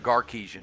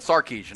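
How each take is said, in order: First: The name begins with a hard G sound. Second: The name begins with an S sound. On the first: This is how someone else mispronounced it. The speaker calls it wrong. "I don't know if he said Garcia-Kisian or Garkisian" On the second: This is the actual name. The speaker calls it right. "It wasn't Sarkisian, I know that"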